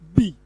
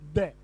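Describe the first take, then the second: First: The word ends in a long 'ee' vowel. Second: The word ends in a short 'uh' vowel. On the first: It comes before a vowel sound. "When the sound is a vowel sound, it is pronounced" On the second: It comes before a consonant sound. "When it is a consonant sound, it is pronounced"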